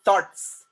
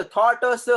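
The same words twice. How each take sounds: First: Said in the usual way. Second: थॉट्स broken up with extra vowels, like थॉ-ट-अ-स; higher, louder थॉट्स with an added uh after each final consonant; wrongly split syllables. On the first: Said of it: "It's a single syllable word". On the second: Shown as a demonstration. Teacher showing how we don't say it, mispronounced with added syllables. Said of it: "उसको हमने वैसे नहीं बोलते".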